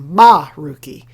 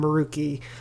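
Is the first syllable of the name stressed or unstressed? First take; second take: stressed; unstressed. First: The first syllable is stressed. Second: The first syllable is not stressed.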